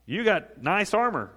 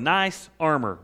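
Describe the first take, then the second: First: You got nice armor, slow and drawn out, leaning on "armor"; slow mocking taunt. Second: Said in the usual way. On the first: Shown as a demonstration. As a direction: sneer at "armor" slowly, word by word. Preacher repeats the armor taunt, slowed.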